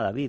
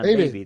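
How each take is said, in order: First: The name is pronounced the Spanish way. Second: The name is pronounced the English way. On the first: This is how the player himself says his name. The speaker calls it right. "que se llama David" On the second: This is how people in England say the name. The speaker calls it wrong. "llega a Inglaterra y le llaman David"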